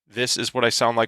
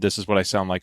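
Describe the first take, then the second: First: The voice is shaped by an esports EQ preset. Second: The voice is shaped by the default EQ preset. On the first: "with the esports preset" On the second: "on default"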